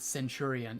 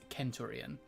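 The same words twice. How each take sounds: First: The word begins with a soft S sound. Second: The word begins with a hard K sound. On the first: The speaker calls it wrong. "it's not centurion" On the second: The speaker calls it right. "pronouncing the C hard"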